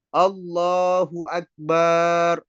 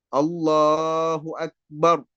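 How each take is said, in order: First: The vowel after the b is drawn out. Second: The vowel after the b is short. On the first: The speaker calls it wrong. "memanjangkan huruf ba" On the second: The speaker calls it right. "ini dengan lafaz yang benar"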